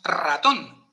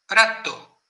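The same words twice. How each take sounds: First: "ratón" with a trilled opening r; strong initial R. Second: "ratto" opened with one light tap; no trill on the r of "ratto"; soft initial R. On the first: Host showing Castilian word-initial R, strong trill. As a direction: roll the first r of "ratón". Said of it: "la hace fuerte". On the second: Host illustrating Italian initial R, soft tap. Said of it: "Con una R suave". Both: Shown as a demonstration.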